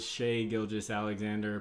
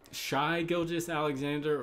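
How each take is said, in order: First: The first name rhymes with 'day'. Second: The first name rhymes with 'eye'. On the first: "Maybe it's Shay Gilgis Alexander" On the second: "I said Shy"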